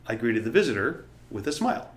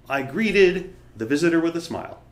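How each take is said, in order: First: There is a break before 'with a smile'. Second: It flows without a break before 'with a smile'.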